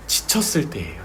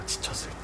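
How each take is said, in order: First: Said in the usual way. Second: Breathy whispered repeat. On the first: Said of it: "first take, spoken". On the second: Acted. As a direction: drop to a whisper for weight. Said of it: "repeated, whispered". (속삭이듯 반복)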